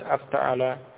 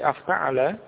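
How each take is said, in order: First: The pitch stays flat to the end. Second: The pitch rises slightly at the end. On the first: The speaker calls it wrong. "bukan sekedar afta'ala" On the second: The speaker calls it right. "tapi afta'ala"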